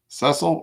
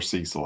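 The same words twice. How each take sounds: First: "Cecil" with a short e, SESS-ul; short-e pronunciation. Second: "Cecil" with a long ee, SEE-sul; long-e pronunciation. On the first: Card opener unsure of player's name, short-e "Cecil". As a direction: say "Cecil" to rhyme with wrestle. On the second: Card opener unsure of player's name, long-ee "Cecil". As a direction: say "Cecil" starting like the word see. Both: Shown as a demonstration. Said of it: "How do you say it?".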